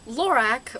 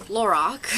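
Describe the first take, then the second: First: "Lorac" ending in -ack, slowly; alternative pronunciation. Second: "Lorac" ending in an open -ock; preferred pronunciation. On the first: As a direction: say "Lorac" to rhyme with back, drawn out. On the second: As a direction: say "Lorac" to rhyme with rock. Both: Shown as a demonstration. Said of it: "I think it's Lorac".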